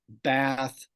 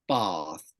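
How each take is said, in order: First: It has the front American ah vowel. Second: It has the back southern English ah vowel.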